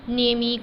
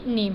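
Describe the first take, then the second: First: An extra drawn-out vowel sounds after the m. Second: The word ends on the m sound. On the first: The speaker calls it wrong. "ई को ज़्यादा ज़ोर देकर ये खींच कर उसे नेम ई करके नहीं पढ़ेंगे" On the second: The speaker calls it right. "नेम है"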